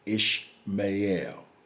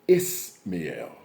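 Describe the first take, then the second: First: The name begins with an 'sh' sound. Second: The name begins with a plain 's' sound. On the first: This is the form used in one Bible version. "it's pronounced Ish, I S H" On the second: This is the form used in an ancient historian's records. "it's pronounced Ismael"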